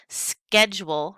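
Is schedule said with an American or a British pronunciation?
American. It is said with an American pronunciation. This is the usage that is spreading.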